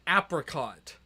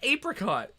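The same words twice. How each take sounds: First: The first syllable has a short a, like 'app'. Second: The first syllable has a long a, like 'ape'. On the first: The speaker calls it wrong. "I've heard someone call like the fruits an apricot" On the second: The speaker calls it right. "No, it's an apricot. ... Who put the ape in apricot?"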